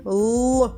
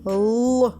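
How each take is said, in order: No difference in how they are said.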